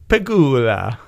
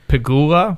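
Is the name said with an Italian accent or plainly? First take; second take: Italian; plain. First: The name is said in an Italian accent. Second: The name is said in a plain accent. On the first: The speaker calls it right. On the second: The speaker calls it wrong.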